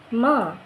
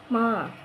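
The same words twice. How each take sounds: First: The pitch falls during the word. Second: The pitch stays level throughout. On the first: It means horse. "Jadi kayak nurun gitu nadanya" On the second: It means mother. "bacanya itu datar nadanya"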